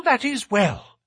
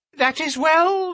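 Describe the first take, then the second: First: A falling repeat in the thin voice; high, falling repeat. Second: High, thin nervous little man. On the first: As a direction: echo it, settling down. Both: A narrator's reading. Thaddeus repeating himself.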